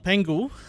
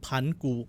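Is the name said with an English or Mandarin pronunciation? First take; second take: English; Mandarin. First: The name is said with English-style sounds. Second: The name is said with Mandarin sounds and tones. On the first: "I'm just gonna go with the English pronunciation of it" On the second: "even though it's Pangu"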